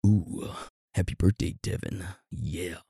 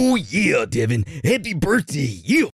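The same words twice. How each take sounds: First: Soft, hammed-up seductive voice; sultry wish trailing off very quietly. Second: High, hammed-up wrestler voice; Macho Man Randy Savage. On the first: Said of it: "in his most seductive voice". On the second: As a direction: belt it out like a pro-wrestling promo. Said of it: "go Macho Man Randy Savage".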